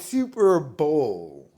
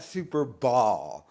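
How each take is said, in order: First: The second word has the vowel of 'bowl'. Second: The second word has the vowel of 'ball'. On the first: The speaker calls it right. "Like it's Super Bowl" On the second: The speaker calls it wrong. "not Super Ball"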